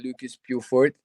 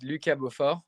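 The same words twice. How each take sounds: First: The name is said with an American pronunciation. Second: The name is said with a French pronunciation. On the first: "people always say" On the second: "French style is"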